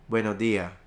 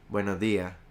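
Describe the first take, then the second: No difference in how they are said.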